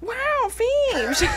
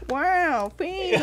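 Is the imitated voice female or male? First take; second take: female; male. First: It is said in a put-on female celebrity voice. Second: It is said in a put-on male celebrity voice. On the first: "What if Jennifer Aniston say wow?" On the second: "And now Owen Wilson says wow"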